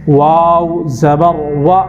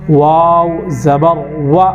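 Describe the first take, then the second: No difference in how they are said.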